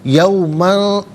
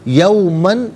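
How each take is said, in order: First: The final n is nasalized and hidden. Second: The final n is pronounced clearly. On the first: The speaker calls it wrong. "यौमन नहीं, गलत है।" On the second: The speaker calls it right. "तनवीन पर इज़हार करेंगे"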